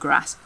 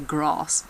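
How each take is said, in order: First: The vowel is short and clipped. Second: The vowel is long and drawn out. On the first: "instead of grass" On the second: "long vowels is when you say grass"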